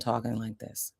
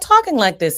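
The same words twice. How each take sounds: First: The voice is lower and quieter. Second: The voice is higher and louder. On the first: "I'm giving you more of my natural, natural tone" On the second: "I'm not talking like this anymore"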